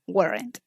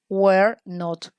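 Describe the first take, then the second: First: It is said as one contracted word. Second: It is said as two separate full words. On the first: "Or the short form is weren't" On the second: "you have to put were not"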